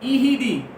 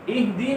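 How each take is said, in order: First: A long first vowel and an extra vowel after h. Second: A short first vowel with h and d joined. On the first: This is how people commonly misread it. The speaker calls it wrong. "अक्सर लोग जो है ना इस लफ्ज को क्या पढ़ते हैं" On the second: This is the correct reading. The speaker calls it right. "ये ईहिदी नहीं है बल्कि क्या है"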